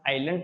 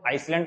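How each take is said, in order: First: The word is said with no S sound. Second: The word is said with an S sound. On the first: The speaker calls it right. "इसे हम आइलैंड पढ़ते हैं" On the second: The speaker calls it wrong. "आइसलैंड तो नहीं बोलते हैं ना"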